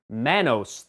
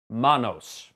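First: The word is said with an anglicized pronunciation. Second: The word is said with a Spanish pronunciation. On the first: The speaker calls it wrong. "seemingly everyone calls this movie Manos" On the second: The speaker calls it right. "the correct pronunciation is, in fact, Manos"

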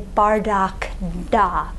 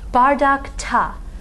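First: The ending starts with a voiced d sound. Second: The ending starts with a voiceless t sound. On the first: The speaker calls it wrong. "than if we tried to say bardak da" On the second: The speaker calls it right. "bardak ta is a lot easier to say"

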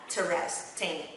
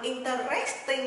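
First: The stress is on the first syllable. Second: The stress is on the third syllable. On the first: The speaker calls it right. "mà nó nhấn âm 1" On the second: The speaker calls it wrong. "nó không nhấn âm interesting, nhấn âm 3 nha"

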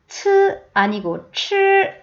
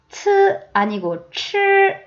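No difference in how they are said.

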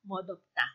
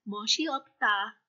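First: The word is said contracted, sounds linked together. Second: The word is said in full, syllable by syllable. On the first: "kinontract natin, or shortcut natin"

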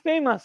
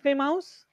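First: The second syllable sounds like 'mus'. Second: The second syllable sounds like 'mouse'. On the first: The speaker calls it right. "This is famous, yes?" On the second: The speaker calls it wrong. "Is it Fay Mouse?"

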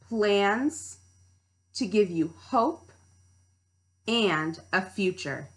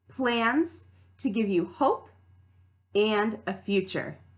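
First: It is said at a slower pace. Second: It is said at a faster pace.

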